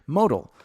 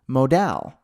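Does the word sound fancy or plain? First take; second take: plain; fancy. First: It is said in a plain, ordinary way. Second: It is said in a fancy, elegant way. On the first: The speaker calls it right. "You say it modal. It sounds stupid" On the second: The speaker calls it wrong. "I used to pronounce it funny"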